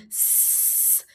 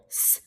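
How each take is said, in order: First: S held as a drawn-out "sss"; long S sound. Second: S as a brief unvoiced "s"; short S sound. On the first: Teacher offering pupils the long option, drawn-out S sound. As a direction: stretch the S hiss out. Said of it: "or you can make the long". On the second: Teacher offering pupils the short option, brief S sound. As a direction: keep the S hiss short. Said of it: "You can make the short S sound". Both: Shown as a demonstration.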